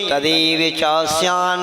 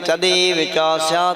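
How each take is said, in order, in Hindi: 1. आखिरी शब्द का अंत जोर वाली n ध्वनि से होता है। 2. आखिरी शब्द का अंत t ध्वनि से होता है। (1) "यदि आप श्यान पे जोर दे के बोलेंगे तो नहीं है" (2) "तो चल जाएगा"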